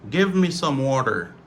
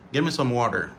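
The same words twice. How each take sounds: First: "Give me" with a clear v; careful, unreduced "Give me"; full pronunciation. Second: "Give me" said as gimme; casual run-together "Give me"; reduced form. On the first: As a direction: articulate "Give me" as two words. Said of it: "ça c'est prononciation normale". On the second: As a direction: drop the v in "Give me". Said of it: "c'est gimme". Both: Shown as a demonstration.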